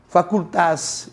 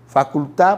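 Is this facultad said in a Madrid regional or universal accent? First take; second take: Madrid regional; universal. First: The final d is said the Madrid regional way. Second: The final d is said the universal way. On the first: "Os madrilenhos às vezes falam" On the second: "a melhor pronúncia é"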